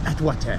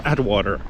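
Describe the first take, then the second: First: It is said with a French pronunciation. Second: It is said with an English pronunciation. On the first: The speaker calls it wrong. "they say it as if it's Paris" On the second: The speaker calls it right. "Which is ridiculous. It's Atwater"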